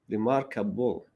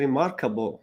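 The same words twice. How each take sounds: First: The stress is on the last syllable. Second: The stress is not on the last syllable.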